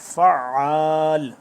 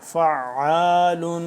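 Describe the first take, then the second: First: The word stops short without the '-un' ending. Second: The word ends with a nasal '-un' ending. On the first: The reader stops on this word. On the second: The reading continues without stopping.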